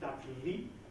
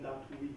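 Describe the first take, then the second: First: The ending is a full u vowel. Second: The ending is a w-like glide. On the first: The speaker calls it wrong. "nicht Datui" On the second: The speaker calls it right. "sondern Datui. Ja, so wird das W aussprechen, so wie französisches W"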